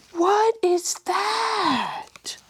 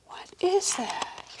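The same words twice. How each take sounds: First: High, slow breathy wonder; amazed whisper. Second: Quicker high whisper; amazed whisper. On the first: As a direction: whisper it in awe. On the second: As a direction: ask it again softly. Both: A narrator's reading. Reader amazed at picture.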